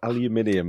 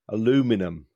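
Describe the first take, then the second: First: The word is said the British way. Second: The word is said the American way.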